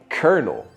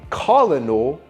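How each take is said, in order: First: The word is said with an R sound, like kernel. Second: The word is said with an L sound, as spelled. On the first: The speaker calls it right. "we say kernel" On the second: The speaker calls it wrong. "we don't say colonel"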